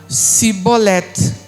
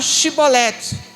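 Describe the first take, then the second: First: The word begins with a plain s sound. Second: The word begins with a hushing sh sound. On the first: It has no meaning at all. The speaker calls it wrong. "Eles não conseguiam pronunciar o X e falavam Sibolete" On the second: It is the real word, meaning ear of grain. The speaker calls it right. "eles não conseguiam pronunciar o som chiado"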